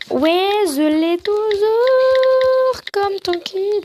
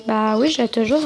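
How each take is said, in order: First: Put-on high, babyish, very drawn-out vowels; silly put-on voice. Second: Said in the usual way. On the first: Joking about still having the gifted mug, high silly voice. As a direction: stretch it out in a high silly lisp. Silly redo, then stops herself.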